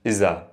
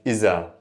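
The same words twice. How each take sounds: First: The middle consonant is a 'z' sound. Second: The middle consonant is a 'z' sound.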